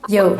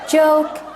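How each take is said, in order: First: The word begins with a y sound. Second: The word begins with an English j sound.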